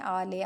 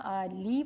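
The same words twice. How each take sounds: First: آلی said as aalay, ending in ے; wrong reading. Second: آلی said as aalee, ending in long ی; correct reading. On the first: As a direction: say آلے with -ay ending. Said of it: "آلے نہیں پڑھنا". (غلط تلفظ آلے) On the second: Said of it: "آلی پڑھنا ہے". (درست تلفظ آلی) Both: Shown as a demonstration.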